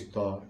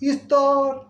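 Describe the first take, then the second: First: It is said from a low voice level. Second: It is said from a high voice level. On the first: "নিম্ন স্তর" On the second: "উঁচু স্তর"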